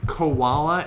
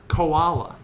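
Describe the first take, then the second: First: Koala with a w slipped in after o; mispronounced koala. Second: Koala with no w between o and a; correct koala. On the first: Retold or imitated. Quoting a friend's koala, with a w glide. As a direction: say koala as if it had a w. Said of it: "she was saying koala". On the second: Shown as a demonstration. Correcting a friend's koala, without the w. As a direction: glide straight from o to a in koala. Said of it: "I said it's koala".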